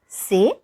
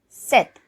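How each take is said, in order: First: The word ends without a t sound. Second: The word ends with a clear t sound. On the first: "usually this word is pronounced as c'est" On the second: "as it is followed by a vowel U, it will be pronounced as set"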